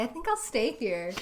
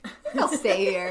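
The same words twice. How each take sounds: First: Said in the usual way. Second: Repeated through a laugh. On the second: Shown as a demonstration. Friend repeating the line for fun, laughing. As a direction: say it again, giggling.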